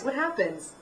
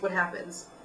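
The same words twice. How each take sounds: First: It is said lively, with questioning pitch. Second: It is said flat, with the same pitch. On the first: The speaker calls it right. "play it and reflect it as a question" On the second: The speaker calls it wrong. "That's how you say it"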